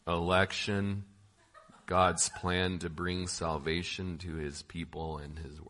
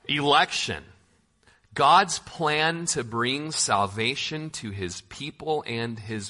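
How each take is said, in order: First: It is read in a flat, droning put-on voice. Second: It is read in the speaker's ordinary natural voice. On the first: "in my best professor from Ferris Bueller's Day Off voice" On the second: "I'll do my normal voice"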